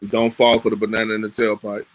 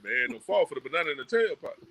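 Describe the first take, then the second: First: It is said in a plain, ordinary manner. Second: It is said with a stylized Black vernacular flavor.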